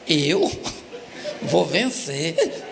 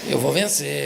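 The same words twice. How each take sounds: First: It is said as a question, rising. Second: It is said as a firm statement, falling.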